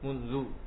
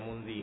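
First: The word ends with a u vowel. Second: The word ends with an i vowel. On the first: The speaker calls it right. "dia mabni di atas dhammah" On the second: The speaker calls it wrong. "enggak pernah baca munzi"

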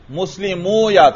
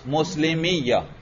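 First: A long 'u' is heard before a separate 'ya'. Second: The ending merges into a doubled 'iyya' sound. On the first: This is the underlying form before the merging. "تو مسلمیہ حالت رفعی میں کیا تھا؟" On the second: This is the form after the sounds have merged. "تو کسرہ دے دیا، کیا بن گیا؟"

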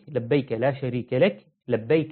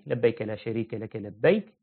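First: There is a pause before the final 'labbayk'. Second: There is no pause before the final 'labbayk'. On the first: The final 'labbayk' begins the next sentence. "بعض أهل العلم قال السكتة تكون قبل لبيك الثانية" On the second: The final 'labbayk' closes the sentence. "والمشهور"

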